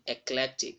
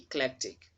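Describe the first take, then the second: First: The first vowel is a full 'ee' sound. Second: The first vowel is weak and reduced. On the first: The speaker calls it wrong. "That letter E is not stressed, so you wouldn't say eclectic" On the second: The speaker calls it right. "it's not having a stress mark on it, so it should be eclectic"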